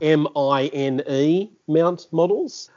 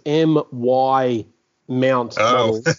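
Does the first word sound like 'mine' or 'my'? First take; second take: mine; my. First: The first word sounds like 'mine'. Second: The first word sounds like 'my'. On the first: "not MINE mount models" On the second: "I kept thinking it was MY mount models"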